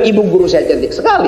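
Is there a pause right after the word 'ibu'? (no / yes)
no. There is no pause after 'ibu'. The speaker says their female teacher is very pretty. The speaker calls it wrong. "Bukan ibu guru saya cantik sekali itu"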